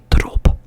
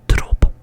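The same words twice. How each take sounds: The two takes are said the same way.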